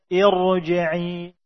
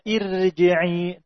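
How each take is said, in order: First: The r sound is heavy and thick. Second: The r sound is light and thin. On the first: The speaker calls it right. "tapi dibaca irji'i" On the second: The speaker calls it wrong. "Tidak dibaca irji'i"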